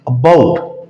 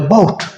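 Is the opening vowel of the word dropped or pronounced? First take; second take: pronounced; dropped. First: The opening vowel is pronounced and stressed. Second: The opening vowel is dropped entirely. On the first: The speaker calls it wrong. "हम ज़्यादा जोर जो देते हैं अलिफ पे देते हैं" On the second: The speaker calls it right. "इस ए को नहीं पढ़ा जाएगा"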